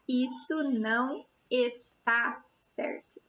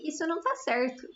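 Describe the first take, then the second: First: The verb is said in full as está. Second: The verb is shortened to tá. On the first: "the right form would be" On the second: "But we just say"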